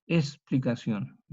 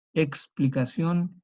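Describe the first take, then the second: First: Explicación with the k dropped, es-pli-ka-SJON; everyday explicación, no k; popular s. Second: Explicación with a full ks, said slowly; careful eks-pli-ka-SJON. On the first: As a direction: drop the k in explicación. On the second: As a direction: spell out the ks in Explicación. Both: Shown as a demonstration. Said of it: "nuestro castellano popular".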